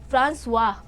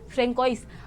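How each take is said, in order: First: The name is said the French way, ending in 'wa'. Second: The name is read out letter by letter, ending in 's'. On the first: The speaker calls it right. "थोड़ा सा वैसे French accent वाला होगा ना, तो इन्हें बोलते हैं फ्रांसवा" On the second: The speaker calls it wrong. "फ्रेंकोइस नहीं"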